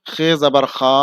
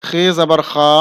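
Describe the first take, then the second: Both takes have the same delivery.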